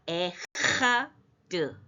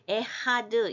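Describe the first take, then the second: First: The word has a slight break and strong accent. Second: The word flows smoothly without any break. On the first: The speaker calls it right. "약간 끊어야 돼요" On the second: The speaker calls it wrong. "이렇게 편하게 읽으면 안 되고요"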